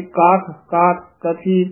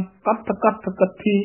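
First: ਕਾਥ ਕਾਥ with long open aa and soft th; soft, long vowel. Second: ਕੱਥ ਕੱਥ with short vowel and tight double th; hard, doubled consonant. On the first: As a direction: stretch the aa in ਕਾਥ, no doubled th. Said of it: "ਪੋਲੇ ਹੀ ਪਦ ਬੋਲਨੇ ਹਨ". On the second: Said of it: "ਇਸ ਤਰ੍ਹਾਂ ਨਹੀਂ ਬੋਲਣਾ". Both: Shown as a demonstration.

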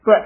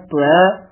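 First: ਤਵੈ clipped short, faint u-glide into ai; quick subtle "tue" for ਤਵੈ; correct pronunciation. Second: ਤਵੈ drawn out with full ai; long heavy "tvai" for ਤਵੈ; wrong pronunciation. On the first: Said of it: "ਸ਼ੁੱਧ ਉਚਾਰਨ ਹੈ". (ਤਵੈ ਔਂਕੜ ਤੇ ਸੂਖਮ ਦੁਲਾਵਾਂ ਨਾਲ) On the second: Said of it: "ਨਾ ਕਹਿਣਾ ਹੈ". (ਤਵੈ ਪੂਰੀਆਂ ਦੁਲਾਵਾਂ ਨਾਲ ਲੰਮਾ) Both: Shown as a demonstration.

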